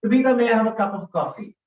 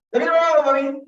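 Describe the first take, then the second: First: Said in the usual way. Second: High, loud gabbled rush; unintelligibly quick, no pauses; too fast. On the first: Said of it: "You know what I asked Tabitha?". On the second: Shown as a demonstration. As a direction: race through it, words blurring together. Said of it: "I can't control my pace and pause".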